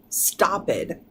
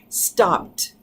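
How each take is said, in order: First: The ending is said as an extra syllable. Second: The p blends straight into a t sound. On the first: The speaker calls it wrong. "We're not going to do stop it" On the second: The speaker calls it right. "You can hear that p blend over to the t"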